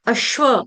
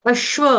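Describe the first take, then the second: First: It is said with a doubled sh sound. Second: The same.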